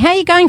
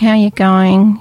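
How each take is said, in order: First: The greeting is lively and excited. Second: The greeting is flat and unexcited. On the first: The speaker is glad to see the friend. The speaker calls it right. "it's enthusiastic" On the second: The speaker does not really care. The speaker calls it wrong. "it sounds so bland"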